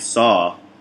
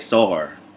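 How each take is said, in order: First: The word ends in a vowel with no r. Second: The word ends with an added r sound. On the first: "instead of saying saw" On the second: "I'll say saw her"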